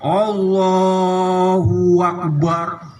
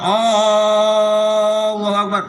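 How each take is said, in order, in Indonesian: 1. Ada bunyi wawu yang menyambung Allahu dan Akbar. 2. Vokal pertama di Allah dipanjangin. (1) "jangan nambahin wawu di antara lafaz Allah dan lafaz akbar" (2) "jangan panjangin mat. Mat hamzahnya itu"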